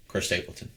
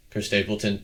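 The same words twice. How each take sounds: First: Hushed reveal. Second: Said in the usual way. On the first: Acted. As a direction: let the name fall away like a secret. Answer dropped to a hushed aside.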